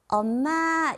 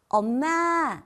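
The two takes are said the same way.

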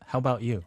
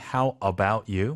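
First: It is said quickly with about reduced. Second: Each word is said carefully and distinctly.

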